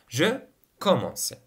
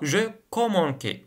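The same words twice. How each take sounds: First: The second c is a soft s sound. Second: The second c is a hard k sound. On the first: The speaker calls it right. "Alors pour la prononciation" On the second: The speaker calls it wrong. "إلا كون ما نضيفولاش le C cédille غادي نطقوها je commençais وغادي تجي ثقيلة"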